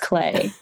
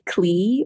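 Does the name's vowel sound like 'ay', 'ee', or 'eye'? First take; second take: ay; ee. First: The vowel sounds like 'ay'. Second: The vowel sounds like 'ee'. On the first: The speaker calls it right. "Googled it this morning to make sure, and it's Clay" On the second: The speaker calls it wrong. "I had been saying it wrong in my mind"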